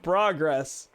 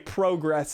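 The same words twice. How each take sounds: First: It is said in the usual American way. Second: It is said in a non-American way. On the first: "instead of progress" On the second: "I say progress ... which most Americans do not say"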